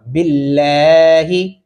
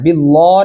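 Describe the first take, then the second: First: बिल्लाही with a light L and long front aa; slow model बिल्लाही, light "lae"; thin light L. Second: बिल्ला with a thick, rounded "law" ending; heavy-L बिल्ला, the error to avoid; wrong heavy L. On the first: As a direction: keep the L of बिल्लाही thin, vowel stretched. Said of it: "इस लाम को बारीक पढ़ना है". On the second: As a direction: darken the L of बिल्ला, as a mistake. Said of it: "बिल्ला नहीं करना". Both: Shown as a demonstration.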